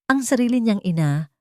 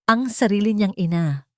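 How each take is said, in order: Both takes have the same delivery.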